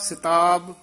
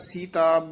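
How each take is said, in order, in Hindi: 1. पहला स्वर ह्रस्व 'i' है। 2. पहला स्वर दीर्घ 'ee' है। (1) "ਸਿਹਾਰੀ ਨਾਲ ਉਚਾਰਨ ਕਰਨਾ ਹੈ" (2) "ਬਿਹਾਰੀ ਨਹੀਂ ਬੋਲਣੀ"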